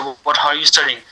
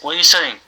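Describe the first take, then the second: First: Each word is said fully and separately. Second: The words are said fast and run together. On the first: "They're not gonna say" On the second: "They say"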